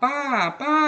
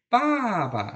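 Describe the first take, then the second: First: The second syllable carries a full tone. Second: The second syllable is light, quick and short. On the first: The speaker calls it wrong. "Jangan dibaca papa ya" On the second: The speaker calls it right. "Ini dibaca ringan ya"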